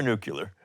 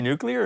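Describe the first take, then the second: First: "nuclear" said as NOO-kyuh-ler; "nuclear" with the last syllables swapped to -kyuh-ler; nucular pronunciation. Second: "nuclear" said as NOO-klee-er; "nuclear" as in new-clear; standard nuclear pronunciation. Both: Shown as a demonstration. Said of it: "You say nuclear or nuclear?".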